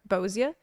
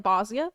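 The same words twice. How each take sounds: First: "Bozia" said as BOH-zee-uh; rounded "oh" in the first syllable of "Bozia"; variant pronunciation. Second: "Bosnia" said as BAH-zee-uh; variant pronunciation. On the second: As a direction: open "ah" in the first syllable of "Bosnia". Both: Shown as a demonstration. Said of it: "saying Bozja differently".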